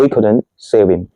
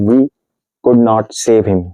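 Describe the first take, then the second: First: 'Could not' is contracted into one word. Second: 'Could not' is said in full as two words.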